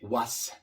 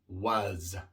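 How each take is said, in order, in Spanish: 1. Termina en un sonido s sordo, silbante. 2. Termina en un sonido z sonoro, zumbante. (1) "No se dice was" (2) "sino was"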